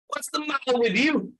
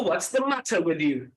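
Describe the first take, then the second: First: Higher British "What's the matter with you?"; British accent. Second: British accent, second variety. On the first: Trainer offers class a first British example, British accent. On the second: Trainer offers class an alternative British reading, British accent. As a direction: lower British "What's the matter with you?". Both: Shown as a demonstration. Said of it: "sound like a British person".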